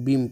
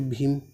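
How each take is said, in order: First: The first sound is a plain, unaspirated 'b'. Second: The first sound is a breathy, aspirated 'bh'. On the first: "इसको बीम पढ़ेंगे" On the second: "भीम ऐसा लिखते हैं"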